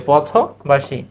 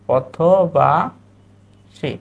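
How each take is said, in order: First: Said in the usual way. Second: "পথবাসী" stretched very slowly as po-tho-baa, then shi; syllable-by-syllable demo. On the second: Shown as a demonstration. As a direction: draw out "পথবাসী" with a gap before the last syllable. ("পথবাসী" খুব ধীরে ভেঙে ভেঙে বলা) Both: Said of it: "কি হবে?".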